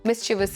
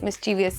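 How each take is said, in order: First: No extra syllable comes before the ending. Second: An extra 'ee' syllable comes before the ending. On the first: The speaker calls it right. "mischievous is right" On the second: The speaker calls it wrong. "Mischievous is wrong"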